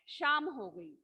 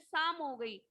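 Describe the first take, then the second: First: The first word begins with an 'sh' sound. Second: The first word begins with a plain 's' sound. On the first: The speaker calls it right. "सही इसका शुद्ध शब्द क्या है?" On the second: The speaker calls it wrong. "कई लोग क्या बोलते हैं, शाम नहीं बोलते"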